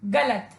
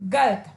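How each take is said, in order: First: A short vowel follows the l sound. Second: There is no vowel after the l sound. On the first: The speaker calls it right. "इसका शुद्ध शब्द होगा गलत" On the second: The speaker calls it wrong. "जो कि एक अशुद्ध शब्द है"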